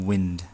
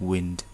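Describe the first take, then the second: No difference in how they are said.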